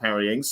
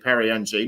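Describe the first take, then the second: First: The surname is said like 'Ings', with an s. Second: The surname is one short nasal syllable. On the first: The speaker calls it wrong. "not Perry Ings" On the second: The speaker calls it right. "so it's actually Perry Ng"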